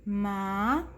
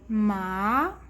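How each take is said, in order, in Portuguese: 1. O tom sobe do início ao fim. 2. O tom sobe do início ao fim.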